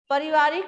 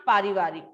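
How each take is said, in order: First: पारिवारिक with a short first vowel, higher, rising end; wrong spelling read out. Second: पारिवारिक with a long first vowel, falling end; correct form. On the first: Teacher shows class the misspelled पारिवारिक, questioning rise. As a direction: sound out the faulty पारिवारिक as pa-rivarik. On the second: Teacher gives class the correct पारिवारिक, falling finish. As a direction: say the right पारिवारिक as paa-rivarik. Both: Shown as a demonstration. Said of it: "आजाद गलत है".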